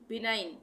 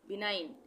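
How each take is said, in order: Both takes have the same delivery.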